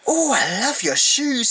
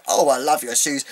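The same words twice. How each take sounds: First: High, slow gushing mimic of the actress; gushing imitation. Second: Said in the usual way. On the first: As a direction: coo it like a dappy fan of shoes. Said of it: "She was like". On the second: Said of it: "She just randomly said".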